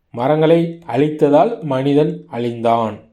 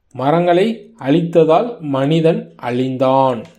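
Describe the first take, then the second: The two takes are said the same way.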